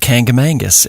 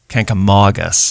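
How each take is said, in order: First: The third syllable has an n: 'mong'. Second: The third syllable has no n: 'mog'. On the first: The speaker calls it wrong. "that's not how you say it" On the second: The speaker calls it right. "the Mog is Mog, M O G"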